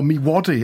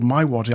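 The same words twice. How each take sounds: First: Waddy with Mi said as "mee"; "Mi" said "mee", the way he always said it. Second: "My" said like the word "my"; "My" rhymes with "eye", then Waddy; correct name. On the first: The way he'd always said it, "mee". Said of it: "I've been calling it Mi Waddy". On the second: Finding out the real name, "My" as in "eye". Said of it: "it's called My Waddy". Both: Real, not acted.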